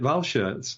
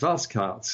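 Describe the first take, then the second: First: The name is pronounced the German way. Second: The name is pronounced the Belgian way. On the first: The speaker calls it wrong. "we've always made it German" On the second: The speaker calls it right. "Sven is telling us it's Valskart"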